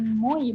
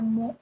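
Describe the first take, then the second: First: The vowel is said as 'oi'. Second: The vowel is said as a plain 'o'. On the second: "Jadi bukan"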